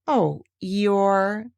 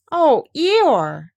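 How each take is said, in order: First: Sympathise gently with the sad donkey; sorry. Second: Put-on higher, louder boyish exclamation; a boy's surprised cry, higher and louder; Christopher Robin. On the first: Acted. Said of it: "feeling very sorry already". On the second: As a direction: call out to him like a fond small boy. Christopher Robin answers Eeyore.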